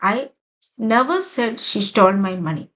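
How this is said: The stress is on the word never. It was not said even once. "ഇവിടെ നെവറിന് ഞാൻ stress കൊടുത്തിരിക്കുകയാണ്"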